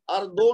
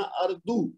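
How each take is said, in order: First: اردو ending in "oh", "ardo"; wrong o ending. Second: اردو ending in "oo", "ardu"; correct u ending. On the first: Teacher repeats the student's slip, اردو ending in o. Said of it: "اردو نہیں پڑھنا". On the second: Teacher corrects the student, اردو ending in oo. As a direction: say اردو as "ardu", pure u at the end. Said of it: "او کی آواز نکالنی ہے". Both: Shown as a demonstration.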